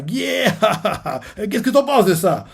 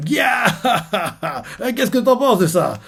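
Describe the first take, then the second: First: High laughing cheer, a bit less put-on; Blackbeard gloating. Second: High, laughing pirate cheer; Blackbeard gloating. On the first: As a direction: crow with glee, laughing. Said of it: "Barbe Noire fait". (Barbe Noire jubile en riant) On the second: Retold or imitated. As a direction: crow with glee like Blackbeard. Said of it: "Barbe Noire". (Barbe Noire qui jubile en riant, voix haute)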